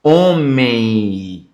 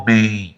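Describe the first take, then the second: First: "Homem" drawn out, ending on a nasal I glide; diphthong ending. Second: "Homem" said with the nose held shut, a blocked nasal sound; nose pinched. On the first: Teacher shows students the I ending, drawn out "Homem". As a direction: stretch "Homem" so the final I sounds. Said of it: "ele vem com som de I". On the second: Teacher shows the class a blocked nose, pinched nasal "Homem". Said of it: "É só você tampar". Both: Shown as a demonstration.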